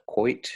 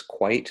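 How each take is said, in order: First: Quite said like 'quoit'; Australian-style quite, as 'quoit'; Aussie quite. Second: Quite with a plain 'eye' vowel; ordinary vowel in quite; standard quite. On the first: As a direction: round the vowel of quite toward 'oy'. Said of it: "sounds like quite a little bit". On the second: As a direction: say quite the American way. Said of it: "sounds like quite". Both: Shown as a demonstration.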